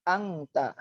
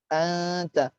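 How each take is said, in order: First: The n is pronounced as an ng sound. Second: The n is blurred and hidden into the t. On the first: The speaker calls it wrong. "Jadi seperti huruf berbahasa Indonesia. A N G T A" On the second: The speaker calls it right. "Jadi samar-samar memasuki huruf ta"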